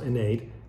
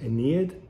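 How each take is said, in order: First: The name is given a Latin pronunciation. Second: The name is given an English pronunciation. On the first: "in Latin it's pronounced Aeneid" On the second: "in the English uh, uh, speaking world it might come through as Aeneid"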